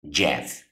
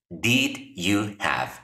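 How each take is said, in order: First: The words blend into one short syllable. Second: Each word is said fully and separately.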